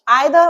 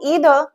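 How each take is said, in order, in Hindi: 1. पहला स्वर 'eye' जैसा है। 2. पहला स्वर 'ee' जैसा है। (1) "ये जो दोनों प्रोनाउंसिएशन है ये बिल्कुल ठीक है" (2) "ये जो दोनों प्रोनाउंसिएशन है ये बिल्कुल ठीक है"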